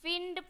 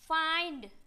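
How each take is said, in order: First: The vowel sounds like 'ih'. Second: The vowel sounds like 'eye'. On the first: The speaker calls it wrong. "फिंड पढ़ देंगे" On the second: The speaker calls it right. "आई से पढ़ते हैं"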